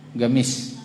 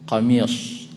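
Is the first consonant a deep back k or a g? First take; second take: g; deep back k. First: The word begins with a g sound. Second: The word begins with a deep back k. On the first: The speaker calls it wrong. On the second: The speaker calls it right. "Kalau ingin dibaca fushahnya qamis"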